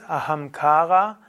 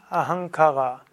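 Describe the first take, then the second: First: The second-to-last vowel is long and stressed. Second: The second-to-last vowel is short and unstressed. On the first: The speaker calls it right. "das zweitletzte A ist lang und damit ist auch eine Betonung drauf" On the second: The speaker calls it wrong. "nicht Ahankara"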